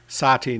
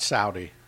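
First: The word is said as 'Sati'. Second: The word is said as 'Saudi'. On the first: The speaker calls it right. "Sati, not Saudi" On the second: The speaker calls it wrong. "not Saudi"

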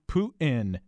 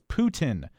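First: The t is said as a glottal stop. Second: The t is said as a full t.

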